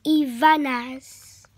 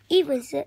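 First: "Ivana's" said slowly as ee-VAH-nuhz; "Ivana's" careful and drawn out, ee-VAH-nuhz; corrected Ivana's. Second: "Evans" read as EV-ans, short e like "evens"; "Evans" said the wrong way like the word evens; misread Ivana's. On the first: Shown as a demonstration. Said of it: "The word is". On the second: Real, not acted. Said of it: "When I said evens, that isn't right".

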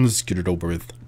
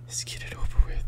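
First: Said in the usual way. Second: Voiceless whisper to oneself. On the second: Real, not acted. Player readies self to enter dark room, whispering. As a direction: whisper it under the breath.

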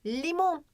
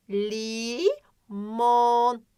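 First: Said in the usual way. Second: "limon" as long "lii", pause, long "moon"; slow "limon" down, holding both vowels; stretched syllables. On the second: Shown as a demonstration. Teacher checking for O, long split syllables in "limon". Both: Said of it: "Tabii ki de var ama".

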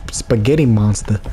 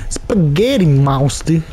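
First: Said in the usual way. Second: Slow, hammed-up Italian accent; mock Italian accent. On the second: Gamer renames the giant boss, mock Italian accent. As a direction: savour it in a put-on Italian accent. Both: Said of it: "It's something out of an Italian's dream".

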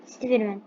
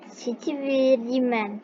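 First: Said in the usual way. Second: Steverman drawn out syllable by syllable; slow trial reading of a foreign name; careful spelling out. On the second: Shown as a demonstration. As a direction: sound out Steverman very slowly, each syllable apart. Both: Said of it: "Nasıl okunduğunu söyleyin bana".

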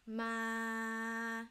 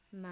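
First: "Ma" long and level at mid pitch. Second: "Ma" long and level at low pitch. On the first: Teacher reviewing first tone, "Ma" mid and flat. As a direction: hold "Ma" flat on a middle note. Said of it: "or mid tone". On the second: Teacher reviewing second tone, "Ma" low and flat. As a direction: hold "Ma" flat on a low note. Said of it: "low pitch". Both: Shown as a demonstration.

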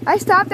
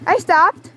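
First: Insistent rising protest. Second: Loud protest. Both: Real, not acted. Arguing over quad ride.

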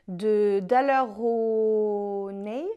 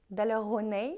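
First: Daler-Rowney said slowly with a heavy French accent, syllables drawn out; French accent on English name. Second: Said in the usual way. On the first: Shown as a demonstration. Vlogger unsure how to say the brand, slow French-accented attempt. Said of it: "mon accent magnifique en anglais". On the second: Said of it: "je sais pas comment on dit".

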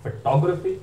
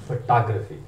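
First: फोटोग्राफी as fuh-TOG-ruh-fee, higher, rising; rounded "taw" sound in फोटोग्राफी, ending up; British pronunciation. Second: फोटोग्राफी as fuh-TAHG-ruh-fee, falling; American pronunciation. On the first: Teacher contrasting the two accents, British fuh-TOG-ruh-fee for फोटोग्राफी. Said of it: "टॉ British है". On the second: Teacher contrasting the two accents, American fuh-TAHG-ruh-fee for फोटोग्राफी. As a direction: open "tah" sound in फोटोग्राफी, ending down. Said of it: "टा American है". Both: Shown as a demonstration.

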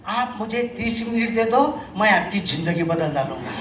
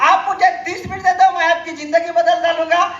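First: Salesman's catchphrase. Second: Higher and laughing through the catchphrase; mock the line while cracking up; laughing mimicry. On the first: Retold or imitated. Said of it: "तो एक dialogue मारायचा". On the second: Retelling the recruiter's line to the audience, laughing. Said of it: "काय म्हणत होतो?".

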